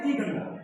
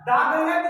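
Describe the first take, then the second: First: 'The' is said with a long 'ee' vowel. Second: 'The' is said with a short 'uh' vowel. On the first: The speaker calls it wrong. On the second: The speaker calls it right.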